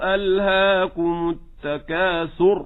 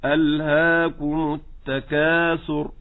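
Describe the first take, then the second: First: ألهاكم التكاثر slow, pressing the tha of التكاثر; wrong penultimate stress. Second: ألهاكم التكاثر slow, stress starting from the kaf. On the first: Teacher shows listeners the wrong stress. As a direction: wrongly press the letter before last in التكاثر. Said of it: "فلا أقول". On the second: Teacher shows listeners the right stress. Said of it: "يكون نشاطي من عند الكاف". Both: Shown as a demonstration.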